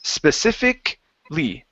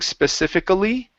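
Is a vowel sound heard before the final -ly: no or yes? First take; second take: no; yes. First: No vowel is sounded before the final -ly. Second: A vowel is sounded before the final -ly. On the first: The speaker calls it right. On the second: The speaker calls it wrong. "the A at the end of the word, we do not pronounce that. So instead of saying"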